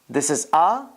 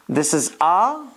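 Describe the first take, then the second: Both takes have the same delivery.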